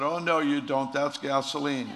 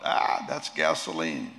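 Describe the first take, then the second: First: Higher, louder indignant yell; mock yell. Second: Low, slow mock cry of disgust; mild cry out. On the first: Doctor Young catching the trick, a higher, louder mock yell. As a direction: yell "That's gasoline" in mock alarm. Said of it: "Doctor Young yells out". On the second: Doctor Young tasting the medicine, a low, slow cry. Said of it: "And Doctor Young cries out".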